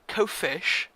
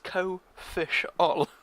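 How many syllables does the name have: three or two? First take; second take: two; three. First: The name is said with two syllables. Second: The name is said with three syllables. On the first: The speaker calls it wrong. "which is wrong" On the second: The speaker calls it right. "those who don't know, it's co-fish all"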